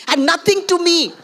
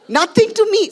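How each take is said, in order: First: Said in the usual way. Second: Nothing to me, much higher and louder, the whole phrase hammered; indignant emphasis on "Nothing to me", loud and high; emphatic repeat. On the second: Real, not acted. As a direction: hit "Nothing to me" hard and high, all three words.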